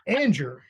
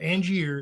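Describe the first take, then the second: First: The name is pronounced in the North Carolina style. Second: The name is pronounced in the Louisiana style. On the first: This is how locals say the hometown. The speaker calls it right. "Anger is, is more North Carolina" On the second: This is how a different place would say it. The speaker calls it wrong. "not Angier. That would be Louisiana"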